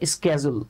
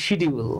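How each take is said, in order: First: It starts with 'sk' and has a 'j' sound. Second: It starts with 'sh' and has a clear 'd'. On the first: The speaker calls it right. "American যে প্রনাউন্সিয়েশনটা সেটা হচ্ছে স্কেজুল" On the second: The speaker calls it wrong. "আমরা অনেকে এটাকে বলি শিডিউল"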